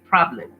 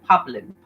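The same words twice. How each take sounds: First: The r after the p is clearly pronounced. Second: The r after the p is left out. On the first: The speaker calls it right. "You have to say problem" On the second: The speaker calls it wrong. "You cannot say problem"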